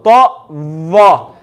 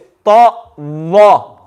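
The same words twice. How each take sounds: First: The second letter starts with a 'th' sound. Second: The same.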